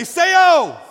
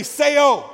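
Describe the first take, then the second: First: High, full-force shout; emphatic shout. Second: Raised, louder call of the word; half-committed call. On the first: Preacher pushes congregation to repeat it like they mean it, emphatic shout. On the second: Preacher prompts the congregation to repeat the Greek word, raised call. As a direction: call it out, holding some back. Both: Shown as a demonstration. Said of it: "say it like you mean it".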